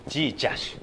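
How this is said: The word is said with j and sh sounds.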